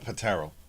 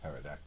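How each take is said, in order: First: The P at the start is pronounced. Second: The P at the start is silent. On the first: The speaker calls it wrong. "not a patero" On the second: The speaker calls it right. "The P is silent"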